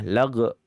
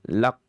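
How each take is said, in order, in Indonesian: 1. Konsonannya adalah hambat dengan pantulan bergema. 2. Konsonannya adalah hambat tertutup yang tegas. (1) "atau qalqalah" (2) "dalam kondisi syiddah"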